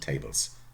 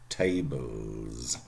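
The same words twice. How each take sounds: First: The word ends in a voiceless s sound. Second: The word ends in a voiced z sound. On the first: The speaker calls it wrong. "nicht tables" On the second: The speaker calls it right.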